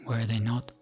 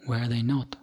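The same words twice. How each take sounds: The two takes are said the same way.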